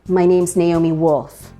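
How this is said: The voice falls at the end like a statement. The speaker sounds confident in herself. The speaker calls it right. "not going up at the ends of your sentences, but going down"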